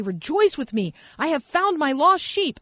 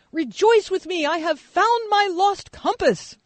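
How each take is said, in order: First: Said in the usual way. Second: Put-on the boy announcing his find to everyone; little kid. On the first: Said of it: "Jesus says". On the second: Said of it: "this little kid yesterday being like".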